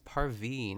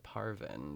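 First: The second syllable has a long 'ee' vowel. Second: The second syllable has a short 'i' vowel. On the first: The speaker calls it right. "it's Parveen" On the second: The speaker calls it wrong. "as opposed to Parvin"

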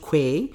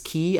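First: The word begins with a kw sound. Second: The word sounds like key, with no w. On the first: The speaker calls it wrong. "and not quay" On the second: The speaker calls it right. "it's key"

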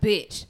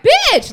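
First: It sounds like announcing juicy news. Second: It sounds like a playful, admiring compliment.

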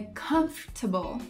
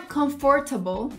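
First: The stress is on the first syllable. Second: The stress is not on the first syllable. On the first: The speaker calls it right. "você pode jogar toda a sua ênfase no comf" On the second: The speaker calls it wrong. "não é comfortable"

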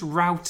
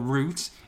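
First: The word is said with an American pronunciation. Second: The word is said with a British pronunciation. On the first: The speaker calls it wrong. "I know you've got an American missus" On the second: The speaker calls it right. "or route in this country"

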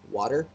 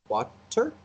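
First: The word is said quickly and casually. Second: Both syllables are carefully and distinctly pronounced. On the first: "he just says water" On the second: "Very pronounced with two syllables"

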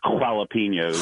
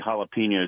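First: The word is said with exaggerated, over-inflected pronunciation. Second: The word is said in a plain, ordinary way. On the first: "we always say jalapenos" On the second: "when we say jalapenos"

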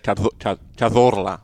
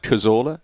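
First: The name is said with Spanish sounds. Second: The name is said with English sounds. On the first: "You don't need to say Cazorla" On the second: "we say that looks like Cazorla"

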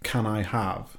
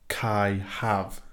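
First: Can and I are said as separate words. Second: Can and I merge into one syllable. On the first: "So I don't say" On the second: "I say"

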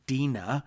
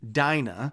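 First: The name is pronounced the Hebrew way. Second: The name is pronounced the English way. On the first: "the name is pronounced Dinah in Hebrew" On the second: "because that's how we pronounce that name in our culture"

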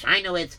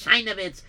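First: The name is said with an American accent. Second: The name is said with a Yiddish accent. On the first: "If you say with an American accent" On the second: "If you say with a Yiddish accent"

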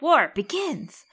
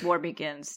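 First: It is said with excited enthusiasm. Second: It is said flatly, without excitement.

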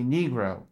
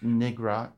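First: The first vowel is a long 'ee' sound. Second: The first vowel is a short 'i' sound. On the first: The speaker calls it right. "It should be Negro" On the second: The speaker calls it wrong. "It's not pronounced Nigra"

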